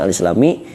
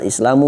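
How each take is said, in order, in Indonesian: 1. Kata itu diakhiri dengan vokal i. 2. Kata itu diakhiri dengan vokal u. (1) "bukan al-islami" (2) "dibacana al-islamu"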